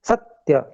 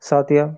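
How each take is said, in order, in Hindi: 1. पहला अक्षर दबाकर बोला जाता है। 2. पहला अक्षर हल्के से बोला जाता है। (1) "उस आकार को थोड़ा दबाया जा रहा है, सत्य ऐसे करके" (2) "अगर हम नहीं दबाव देंगे तो कैसे बोला जाएगा"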